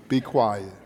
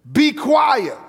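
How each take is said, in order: First: Softer and lower, gently hushing; a low, soft be quiet; nicer, quiet. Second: Sharp rebuke. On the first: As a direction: hush him kindly. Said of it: "He just did it in a nicer way". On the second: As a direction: snap the order out. Contrasting blunt rebuke. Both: Retold or imitated.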